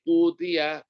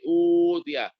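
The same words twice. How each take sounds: First: The long vowel is held for two beats. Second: The long vowel is held for six beats. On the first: "qashar dua harokat" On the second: "isbah enam harokat"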